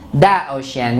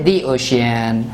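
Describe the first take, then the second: First: The article is said with a short 'thuh' vowel. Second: The article is said with a long 'thee' vowel. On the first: The speaker calls it wrong. "we don't say the ocean" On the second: The speaker calls it right. "we say the ocean"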